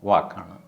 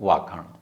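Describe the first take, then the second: The two takes are said the same way.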